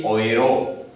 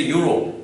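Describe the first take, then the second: First: Euro said as OY-roh; the German way to say euro. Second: Euro said the English way, as YOO-roh. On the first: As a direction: euro starting with the German oy sound. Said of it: "Germans say euro". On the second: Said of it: "In English we say euro". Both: Shown as a demonstration.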